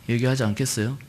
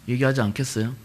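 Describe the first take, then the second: The two takes are said the same way.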